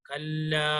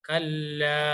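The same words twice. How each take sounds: Both takes have the same delivery.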